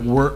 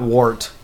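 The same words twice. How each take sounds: First: The vowel sounds like the one in 'work'. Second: The vowel does not sound like 'work'. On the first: The speaker calls it right. "it's wort as in like work" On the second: The speaker calls it wrong. "not wort"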